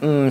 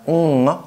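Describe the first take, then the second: First: The hum is made with closed lips. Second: The hum is made with open lips. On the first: The speaker calls it wrong. "with a closed lip M sound" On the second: The speaker calls it right. "with the lips open"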